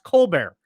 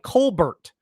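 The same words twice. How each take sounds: First: The final t sound is silent. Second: The final t sound is pronounced. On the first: "but it's pronounced Colbert" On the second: "It looks like Colbert"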